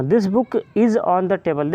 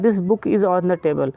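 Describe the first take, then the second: First: Slow example reading. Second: Said in the usual way. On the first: Shown as a demonstration. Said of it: "example लेते हैं". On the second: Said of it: "कह रहा है".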